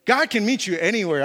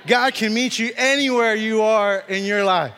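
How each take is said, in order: First: Said in the usual way. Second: Slow, louder proclamation; emphatic preaching. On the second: Real, not acted. Preacher assuring the congregation God reaches them anywhere, emphatic. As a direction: drive it home, stretching each word with force. Repeats refrain with more force.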